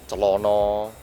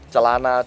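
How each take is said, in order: First: The last two vowels are o sounds. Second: The last two vowels are a sounds.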